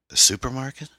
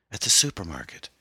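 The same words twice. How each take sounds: First: "supermarket" rising high and louder in disbelief; puzzled echo question. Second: Said in the usual way. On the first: A narrator's reading. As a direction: repeat "supermarket" as a baffled question, pitch climbing to the end. Husband puzzled, repeats her words.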